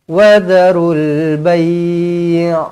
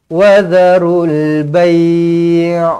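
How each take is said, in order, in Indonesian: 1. Suku kata terakhir dipanjangkan. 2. Suku kata terakhir dipanjangkan.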